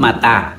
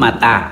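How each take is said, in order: First: The vowels are a then a. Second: The vowels are a then a.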